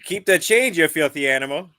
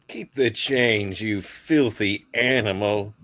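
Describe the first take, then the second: First: It is said in a Chicago Midwestern accent. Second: It is said in his plain accent.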